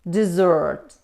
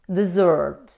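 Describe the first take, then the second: First: The stress is on the second syllable. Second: The stress is on the second syllable.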